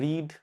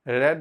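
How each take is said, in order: First: The vowel is a long 'ee' sound. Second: The vowel is a short 'e' sound. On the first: It is the present form. "लिखते उसको रीड ही हैं" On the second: It is the past form. "हम लोग रेड pronounce करते हैं"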